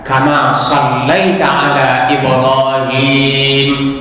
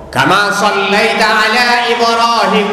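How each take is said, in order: First: The last vowel of Ibrahim is held long. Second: The last vowel of Ibrahim is cut short. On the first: The speaker calls it right. "dipanjangkan sakete" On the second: The speaker calls it wrong. "itu namanya dipendekin saja"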